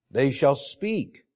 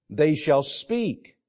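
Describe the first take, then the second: First: Slow, with "shall" lifted and rising; slow pulpit emphasis on "shall"; stress on shall. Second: Slow, with "speak" leaned on and falling; slow pulpit emphasis on "speak"; stress on speak. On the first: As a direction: press "shall" as a promise. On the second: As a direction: dwell on "speak" as the point of the verse. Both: Shown as a demonstration. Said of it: "emphasis is on verbalizing".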